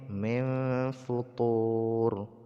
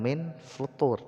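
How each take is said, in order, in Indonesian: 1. Huruf n tersembunyi dalam dengung sengau yang panjang. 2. Huruf n dibaca jelas sebelum f. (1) "tapi min min futur" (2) "bukan min futur"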